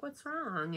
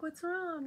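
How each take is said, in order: First: Higher imitated worried coworker; concerned coworker. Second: Much higher imitated worried coworker; concerned coworker. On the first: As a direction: ask it as a caring colleague, lightly mimicked. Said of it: "she's like". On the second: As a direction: ask it again as the caring colleague, pitched way up. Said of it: "She's like".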